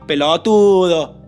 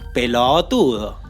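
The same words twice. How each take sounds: First: The syllable before the stress is short. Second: The syllable before the stress is drawn out. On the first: The speaker calls it wrong. "¿Qué hacen los porteños?" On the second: The speaker calls it right. "Se dice pelotudo"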